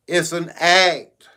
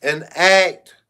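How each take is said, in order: First: Slow deliberate it's an act, leaning on act; slow stress on act. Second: Said in the usual way. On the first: Shown as a demonstration. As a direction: spell out it's an act word by word. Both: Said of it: "And when I say".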